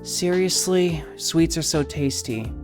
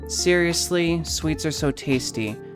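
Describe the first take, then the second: First: The voice is airy and breathy, like a sigh. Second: The voice is clear, deep and not breathy. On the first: "go from breathy" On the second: "to deep"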